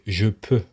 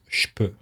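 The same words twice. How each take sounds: First: The je keeps its voiced j sound. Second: The je is contracted to a voiceless che.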